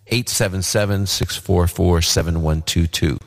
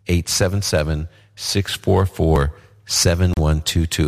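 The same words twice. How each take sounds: First: The number is read at a normal, quicker pace. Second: The number is read slowly and deliberately.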